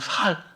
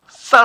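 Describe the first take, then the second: First: It starts with a plain, soft s sound. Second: It starts with a tense, hard ss sound. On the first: "경상도 사람들 쌀을 못 하신다면서요" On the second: "쌀 한번 해봐"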